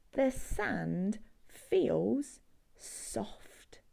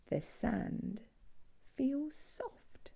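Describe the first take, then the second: First: Slow breathy whisper, soft as sand. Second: Said in the usual way. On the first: Acted. Whispering to children how soft sand feels. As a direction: whisper it slowly to little listeners.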